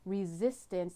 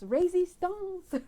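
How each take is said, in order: First: It is said in a plain English accent. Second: It is said in an exaggerated French accent.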